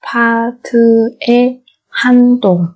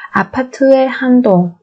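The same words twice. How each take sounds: First: Syllable by syllable. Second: Said in the usual way. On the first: Shown as a demonstration. Teacher models word syllable by syllable.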